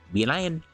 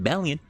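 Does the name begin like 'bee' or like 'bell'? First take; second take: bee; bell. First: The first syllable sounds like 'bee'. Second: The first syllable sounds like 'bell'. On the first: The speaker calls it right. "the words bee and lion" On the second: The speaker calls it wrong. "I was calling him [name]"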